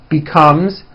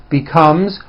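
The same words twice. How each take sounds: The two takes are said the same way.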